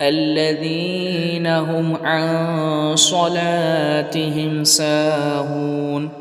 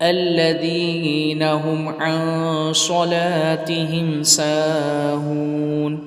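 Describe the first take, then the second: Both takes have the same delivery.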